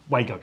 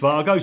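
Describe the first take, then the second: First: The word begins with a W sound. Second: The word begins with a V sound. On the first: This is what people on site commonly call it. The speaker calls it wrong. "we call these on site Wago connectors" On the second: This is the actual name of the connector. The speaker calls it right. "Actually, it's Vargo"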